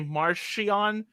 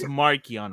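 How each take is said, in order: First: The middle consonant is a ch sound. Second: The middle consonant is a hard k sound. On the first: This is the creator's pronunciation. "If he wants to say Marchion, good" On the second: This is the speaker's preferred pronunciation. "it's Markion Ro"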